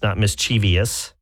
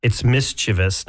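First: Mischievous slowly with an extra ee syllable; mischievous stretched with an extra ee syllable; wrong mischievous. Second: Mischievous slowly in three syllables; correct mischievous. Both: Shown as a demonstration.

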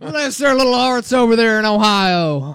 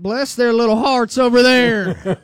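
First: Put-on loud high Southern accent breaking into laughter; laughing Southern mock. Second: High, loud Southern "bless their little hearts"; mock Southern belle. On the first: Co-host repeating the Southern jab at Ohio State, loud and laughing. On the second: Co-host showing how the South would mock Ohio State, in a loud high Southern accent. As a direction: ham up a sugary Southern accent, much higher and louder. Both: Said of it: "here's how it would sound for the South".

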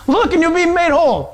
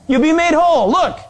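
First: Mocking echo. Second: Calling out. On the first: Scoffer echoes the promise in disbelief. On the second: Acted. Acts out Moses urging the people.

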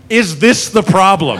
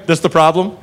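First: "Is this the problem?" drawn out slowly; slow emphatic question. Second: Said in the usual way. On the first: Retold or imitated. Cop sizing up the crazy lady, "Is this the problem?" slow and emphatic. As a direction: stretch "this the problem" slowly, as if eyeing an animal. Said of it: "Like she's a wild animal". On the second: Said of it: "And finally goes".

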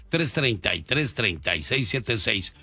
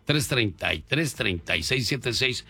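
Both takes have the same delivery.

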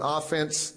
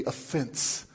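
First: Offense said OFF-ense, stress on the first syllable; sports-style stress. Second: Offense said uh-FENSE, stress on the end; stress on second syllable. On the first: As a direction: hit the OFF in offense. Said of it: "that's not what I'm talking about". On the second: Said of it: "put the right emphasis on the right syllable". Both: Shown as a demonstration.

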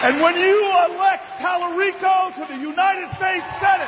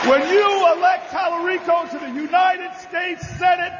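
First: Roaring endorsement; rally shout. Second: Roaring endorsement once more; rally shout repeated. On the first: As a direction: shout the name to the crowd. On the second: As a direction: hammer it home again to the crowd. Repeated over crowd noise. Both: Acted.

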